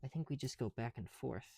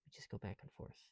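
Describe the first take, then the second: First: Said in the usual way. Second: Whisper. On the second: Real, not acted. Repeats line to self.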